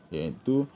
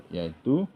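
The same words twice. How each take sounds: No difference in how they are said.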